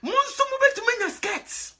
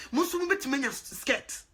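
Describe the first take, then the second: First: High, loud declaration; emphatic promise. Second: Said in the usual way. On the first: Real, not acted. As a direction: insist on it with force.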